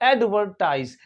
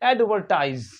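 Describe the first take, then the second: Both takes have the same delivery.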